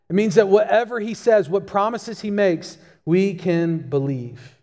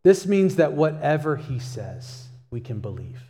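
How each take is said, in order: First: A preacher driving the point home; more urgent restatement. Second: Said in the usual way. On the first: Real, not acted. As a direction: push the second take with rising conviction. Preacher repeats it with more force.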